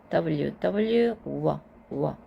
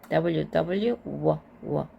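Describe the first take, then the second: The two takes are said the same way.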